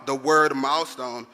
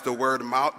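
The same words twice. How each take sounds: First: Slow, weighty "milestone"; "milestone" drawn out, stressed; emphasized milestone. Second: Said in the usual way. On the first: Shown as a demonstration. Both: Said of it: "choose to emphasize the word".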